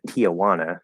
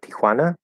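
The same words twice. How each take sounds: First: The name is said the American way, like 'Tia Juana'. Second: The name is said without the American pronunciation.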